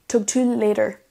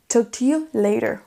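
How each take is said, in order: The two takes are said the same way.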